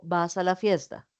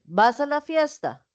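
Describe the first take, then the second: First: "¿Vas a la fiesta?" asked low and soft; a low, matter-of-fact "¿Vas a la fiesta?"; plain question. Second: "¿Vas a la fiesta?" asked high and surprised; "¿Vas a la fiesta?" as an incredulous high question. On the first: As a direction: ask "¿Vas a la fiesta?" lower and quieter. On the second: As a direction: ask "¿Vas a la fiesta?" higher, in disbelief. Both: Shown as a demonstration. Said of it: "Ven que estoy diciendo cosas diferentes".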